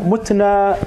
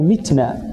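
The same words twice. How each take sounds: First: متنا said as mutna, with u after m; damma vowel. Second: متنا said as mitna, with i after m; kasra vowel. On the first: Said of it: "فيقال منها مت بالضم". (متنا بضم الميم: مُتنا) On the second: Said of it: "فإنك تقول منها مت بالكسر". (متنا بكسر الميم: مِتنا) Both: Shown as a demonstration.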